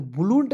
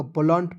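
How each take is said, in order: First: "बुलूंट" with a long oo sounded after the b and l; wrong pronunciation. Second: Said in the usual way. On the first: Shown as a demonstration. Teacher warns students off a misreading, mispronounced "बुलूंट" with long oo. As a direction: say "बुलूंट" with the u fully voiced. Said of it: "नहीं पढ़ लीजिएगा". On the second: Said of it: "पढ़ा जाएगा".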